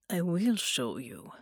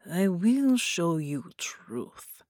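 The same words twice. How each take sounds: First: Said in the usual way. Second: Very slow, whispered promise. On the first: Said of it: "Bela promised". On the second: Acted. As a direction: lean in and breathe the promise. Slower whispered repeat.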